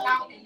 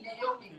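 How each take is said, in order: First: "Naomi" as NOW-mi; wrong pronunciation. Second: "Naomi" as nay-OH-mi; three syllables in "Naomi"; correct pronunciation. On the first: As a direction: run "Naomi" together with an ow sound. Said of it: "Not Naomi". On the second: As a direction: model "Naomi" with a nay opening. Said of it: "This is Naomi". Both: Shown as a demonstration.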